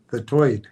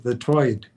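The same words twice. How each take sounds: First: "the Tweed" with a short clipped ee, back toward normal; "Tweed" as written, no New York oi; plainer Tweed. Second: "the Tweed" said as "the Toid", vowel bent New York style; mock New York: "Tweed" becomes "Toid"; "Tweed" with a Brooklyn oi sound. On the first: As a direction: say "Tweed" plainly after the joke. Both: Shown as a demonstration. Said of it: "how you pronounce that New York accent".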